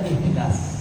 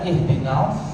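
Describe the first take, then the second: First: The s sound is light and plain. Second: The s sound is heavy and emphatic. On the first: It follows the reading of Ibn Kathir. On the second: It follows the majority reading. "Bacanya adalah huruf sad"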